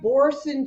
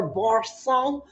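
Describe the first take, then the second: First: "Boursin" with an English ending, -sin; anglicised pronunciation. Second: "Boursin" rhymed with garçon; French-style pronunciation. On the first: Host unsure of the name, "Boursin" said English style. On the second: Host tries the other way, "Boursin" rhyming with garçon. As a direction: end "Boursin" on a French -sawn sound. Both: Shown as a demonstration. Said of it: "supposed to rhyme with garçon".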